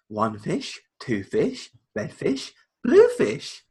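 It is said in an exaggerated storybook voice. "reading a book to Piper, it's more like"

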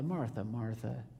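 It is said sarcastically, with an eye-roll tone.

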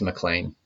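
The name is said the Scottish way.

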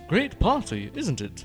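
It is said in a strong British accent. The speaker calls it right.

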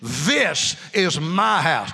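It is said forcefully, with conviction.

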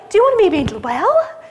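The question sounds joyful and bright. The asker is glad to offer healing. "Is it a tone of joy?"

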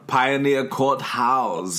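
House is pronounced in a German way.

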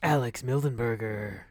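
A dark, brooding hero voice. "Ooh, a dark hero"

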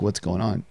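It is asked in a warm, sincere way.

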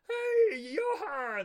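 A silly, goofy cartoon voice is used. The speaker calls it right. "like a goofball"

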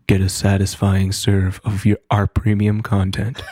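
It is said in a put-on creepy voice. The speaker calls it wrong. "whenever you speak in that incredibly creepy voice"

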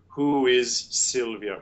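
A short gap separates 'is' from 'Sylvia'. The speaker calls it wrong. "you don't need to do who is Sylvia with a space in between"

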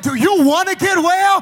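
The question is asked in an expectant tone. The asker hopes the listener will be healed. "in a vocal intonation of expectation"

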